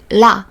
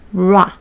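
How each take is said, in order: First: The syllable starts with a sound close to L. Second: The syllable starts with an English-style R sound. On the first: This is how native speakers say it. The speaker calls it right. "we just say la. It's almost like L sounds" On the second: This is how it is read from the alphabet. The speaker calls it wrong. "probably you will pronounce like ra"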